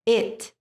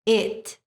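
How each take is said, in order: Both takes have the same delivery.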